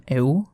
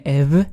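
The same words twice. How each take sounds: First: Εου glided slowly from e into u; ancient diphthong. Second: Ευ closed with a v, "ev"; later Greek pronunciation. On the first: Narrator showing epsilon upsilon, εου as a slow glide. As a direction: draw out εου as two joined vowels. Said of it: "το έψιλον ύψιλον ήταν εου". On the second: Narrator showing how it changed, ευ as ev. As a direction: end ευ on a v sound. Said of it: "στην πορεία το έψιλον ύψιλον έγινε ευ". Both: Shown as a demonstration.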